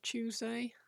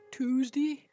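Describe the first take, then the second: First: It is said in a standard English accent. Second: It is said in a Suffolk accent. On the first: "instead of Tuesday" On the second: "Tuesday instead of"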